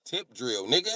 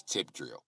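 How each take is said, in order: First: Higher, exasperated repeat; exasperated answer. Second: Lower, soft deadpan reply; low-key answer. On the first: Employee repeating the video's name, exasperated. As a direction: repeat it fed up. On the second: Employee naming the video, low and quiet. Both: Retold or imitated.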